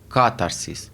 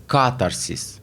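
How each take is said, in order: First: The stress is on the first syllable. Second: The same.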